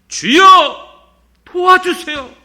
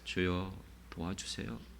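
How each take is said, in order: First: It is said loudly, crying out. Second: It is said quietly and calmly.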